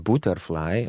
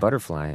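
First: It is said with an Italian pronunciation. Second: It is said with an American pronunciation. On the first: "In Italian, they would say butterfly" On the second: "we sing butterfly"

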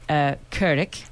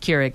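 First: The word is pronounced the Dutch way. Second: The word is pronounced the American way. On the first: It is said the way the original Dutch word is said. The speaker calls it right. "if you want to pronounce it like a real Dutch person" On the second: Listeners in North America will understand it. The speaker calls it wrong. "you mispronounced it Keurig like everyone else does"

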